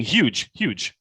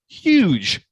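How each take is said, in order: First: Said in the usual way. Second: "huge" high, loud and big; visualized "huge". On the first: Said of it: "do the same thing". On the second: Shown as a demonstration. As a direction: say "huge" wide-eyed, as if it towers over you. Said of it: "now visualize it".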